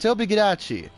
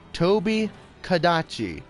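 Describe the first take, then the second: First: The second name begins with a G sound. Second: The second name begins with a K sound. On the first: The speaker calls it wrong. "hearing him pronounce things wrong" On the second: The speaker calls it right. "Toby Kadachi, not Gadachi"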